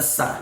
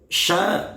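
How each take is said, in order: First: The syllable starts with a plain 's' sound. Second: The syllable starts with an 'sh' sound. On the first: The speaker calls it wrong. "sya kadang-kala dibaca sa" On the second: The speaker calls it right. "Maka yang betul adalah wasyamsi"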